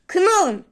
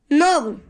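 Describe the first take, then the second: First: The word starts with an audible K sound. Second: The word starts with an N sound. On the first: The speaker calls it wrong. "Known değil" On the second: The speaker calls it right. "K'yi okumuyoruz asla"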